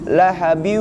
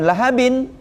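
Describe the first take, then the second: First: The n merges nasally into a following w. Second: The final n is pronounced clearly and separately. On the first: The speaker calls it right. "dibaca lahabiu" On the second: The speaker calls it wrong. "bukan lahabin"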